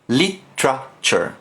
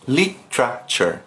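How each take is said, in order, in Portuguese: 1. O meio é comprimido em um único som 'tra'. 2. O meio é comprimido em um único som 'tra'.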